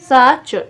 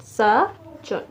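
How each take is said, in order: First: Said in the usual way. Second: साचुन split sa, pause, chon; teacher separating the syllables of साचुन. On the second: Shown as a demonstration. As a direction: leave a gap inside साचुन. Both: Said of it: "तीन तीन syllable बने हैं".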